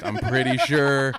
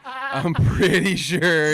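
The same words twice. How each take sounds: First: Louder, slow, teasing warning; mock stern warning. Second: Higher, louder, very slow sing-song; exaggerated mock warning. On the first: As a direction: drag it out like a playful scolding. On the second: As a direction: stretch every word in a teasing singsong. Teasing mock warning repeated.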